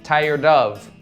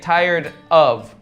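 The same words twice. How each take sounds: First: The d sound runs into the second word. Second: A small gap separates the two words. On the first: The speaker calls it right. "We would say tired of. Kind of sounds like dove" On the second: The speaker calls it wrong. "we wouldn't say tired of. We don't put that little gap there"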